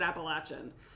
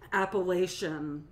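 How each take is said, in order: First: The word is said the local Southern way. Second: The word is said the outsider way. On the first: The speaker calls it right. "That's how we say it" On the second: The speaker calls it wrong. "no one said said it right"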